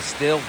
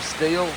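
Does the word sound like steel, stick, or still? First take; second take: still; steel. First: It has a short i vowel, like still. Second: It has a long ee vowel, like steel. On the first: This is how the speaker's own people say it. "I think we call them a still" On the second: This is how Americans say it. "Americans call them steel"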